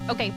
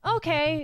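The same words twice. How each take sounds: First: It is said in a short, curt way. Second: It is said in a warm, friendly way. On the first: "It sounds curt" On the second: "rather than saying"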